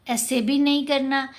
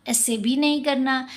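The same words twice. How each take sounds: The two takes are said the same way.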